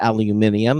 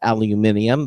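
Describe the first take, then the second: First: The word is said the British way. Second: The same.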